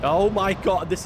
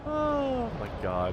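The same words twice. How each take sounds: First: Loud, higher oh my god; real shocked outburst; loud exclamation. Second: Slow, much higher, stretched oh my god; long astonished groan; drawn-out disbelief. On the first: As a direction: blurt it in shock. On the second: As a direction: let it hang in disbelief. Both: Real, not acted. Tornado wrecking the city.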